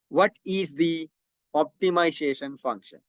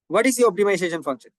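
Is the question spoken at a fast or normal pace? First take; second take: normal; fast. First: The question is spoken at a normal pace. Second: The question is spoken very fast.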